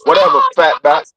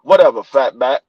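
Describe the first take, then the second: First: Low, far-off dismissive retort; sassy grandson. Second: Put-on low, dismissive kid's retort; sassy grandson. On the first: Retold or imitated. Grandpa imitating grandson's repeated insult, low sass. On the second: Grandpa imitating grandson calling him fat back, low sass. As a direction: toss the insult off lazily.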